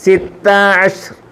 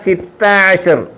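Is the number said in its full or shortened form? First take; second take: shortened; shortened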